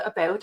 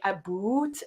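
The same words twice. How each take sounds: First: Said in the usual way. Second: "a boot" said as two words, a boot with an oo vowel; "a boot" as in a boot on the foot; Canadian about. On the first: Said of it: "instead of". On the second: Shown as a demonstration. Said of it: "That is my accent".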